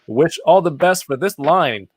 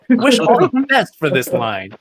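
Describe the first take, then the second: First: It is read in a flat tone. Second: It is read in an excited tone.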